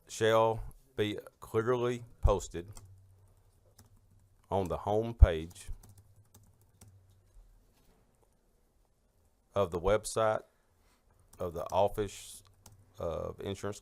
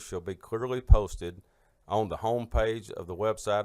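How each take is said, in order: First: It is read slowly. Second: It is read fast.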